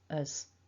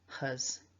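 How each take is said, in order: First: It begins directly with a vowel. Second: It begins with an h sound. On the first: "you'll hear many people dropping the H. So huz can be heard as us" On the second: "So huz"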